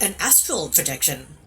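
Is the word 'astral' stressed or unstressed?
stressed. The word astral carries strong stress. It contrasts with other types of projection. The speaker calls it wrong. "He said, ... as if those other types of projection"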